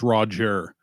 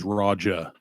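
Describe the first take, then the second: First: The final R sound is clearly pronounced. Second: The final R sound is dropped. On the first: "the hard R is Roger" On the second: "The soft R is Raja"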